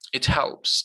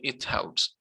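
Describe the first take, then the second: First: Both words run together with stress on helps. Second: The two words are said separately and evenly. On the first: The speaker calls it right. "read them as one word, put less stress on the helping word" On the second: The speaker calls it wrong. "Don't say it helps"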